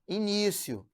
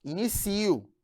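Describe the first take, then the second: First: "início" stressed on the second syllable, i-NÍ-cio; "início" as a noun, i-NÍ-syo. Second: "inicio" stressed late, i-ni-CI-o; "inicio" as a verb, i-ni-SÍ-o. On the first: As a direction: hit NÍ in "início". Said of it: "Aí você tem aqui a sílaba tônica". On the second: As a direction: hit CI in "inicio". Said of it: "que é diferente de". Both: Shown as a demonstration.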